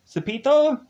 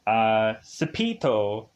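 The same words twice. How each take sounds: First: Cepito? pitched much higher and louder as a question. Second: Slow, careful Cepito, sounded out; testing how Cepito is said; unsure Cepito. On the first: Narrator checking a name with viewers, questioning. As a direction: ask whether Cepito is right. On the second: Narrator sounding out a name for viewers, hesitant. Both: Shown as a demonstration. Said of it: "Am I saying that correctly?".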